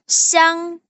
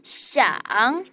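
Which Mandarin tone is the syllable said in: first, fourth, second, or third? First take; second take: first; third. First: The syllable is said in the first tone. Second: The syllable is said in the third tone. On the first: "Itu siang" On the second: "Nada tiga itu siang"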